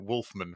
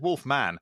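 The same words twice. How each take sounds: First: It sounds like a family surname. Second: It sounds like a title, not a surname. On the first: The speaker calls it wrong. "I pronounced it Wolfman for some reason, as if as if it was a surname" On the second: The speaker calls it right. "it was Wolfman"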